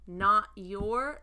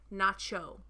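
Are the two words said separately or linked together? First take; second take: separate; linked. First: The words are said separately, with a clear t. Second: The words are linked, with t and y becoming ch.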